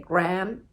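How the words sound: The word is said the American way. "I think Americans say graham"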